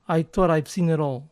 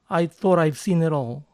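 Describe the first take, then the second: Both takes have the same delivery.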